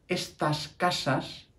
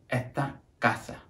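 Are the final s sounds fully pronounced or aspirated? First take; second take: full; aspirated. First: The final s sounds are fully pronounced. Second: The final s sounds are aspirated, vowels lengthened.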